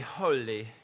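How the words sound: The word is said in an English accent. The speaker calls it right. "when they say holy"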